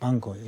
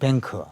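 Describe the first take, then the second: First: The word is said in a British accent. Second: The word is said in an American accent. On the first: "영국식으로는 방크" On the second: "미국식으로는 뱅크"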